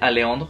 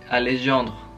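First: The J sound in the middle is left out. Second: The J sound in the middle is pronounced.

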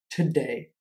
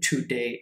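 First: The first syllable has a reduced schwa vowel. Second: The first syllable has a full 'too' vowel. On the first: The speaker calls it right. "è today" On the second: The speaker calls it wrong. "ma non è today"

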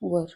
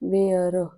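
First: The vowel is a short 'ur' sound. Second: The vowel sounds like the one in 'wear'. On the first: The speaker calls it right. "वर म्हणायचं... हे योग्य pronunciation आहे" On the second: The speaker calls it wrong. "हे चुकीचं आहे. वेअर नाही म्हणायचं"

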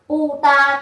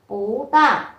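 First: The first syllable has a falling tone. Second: The first syllable has a rising tone. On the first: "hai thanh bốn đi liền nhau" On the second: "chúng ta đọc là pú ta"

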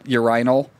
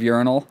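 First: It is said with a British pronunciation. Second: It is said with a non-British pronunciation. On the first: "that's just the British pronunciation, because they say things like urinal" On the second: "instead of urinal"

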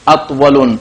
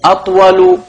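First: The word ends in a u vowel plus n. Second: The word ends in a short u vowel. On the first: The speaker calls it wrong. "don't say" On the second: The speaker calls it right. "all at the end we have one ضمة"

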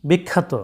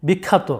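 Both takes have the same delivery.

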